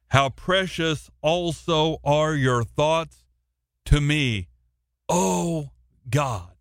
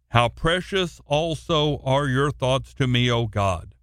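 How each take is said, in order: First: It is read with exclamatory energy. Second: It is read flatly, without exclamation.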